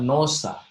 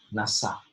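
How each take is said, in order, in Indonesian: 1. Vokal pertama terdengar seperti 'o'. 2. Vokal pertama terdengar seperti 'a'. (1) "Bukan nosa" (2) "dibaca nasa gini"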